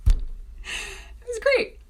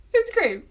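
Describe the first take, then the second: First: High, slow, breathy sarcastic "great"; sarcastic squeak. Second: Said in the usual way. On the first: Real, not acted. Sarcastic aside, then repeated.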